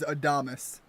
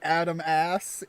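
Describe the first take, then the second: First: The name ends with an 'us' sound. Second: The name is said as 'Adam' plus 'ass'. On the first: The speaker calls it right. "it was not registering as Adamus" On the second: The speaker calls it wrong. "I would have pronounced it like Adam Ass"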